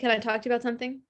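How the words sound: It sounds panicked and upset.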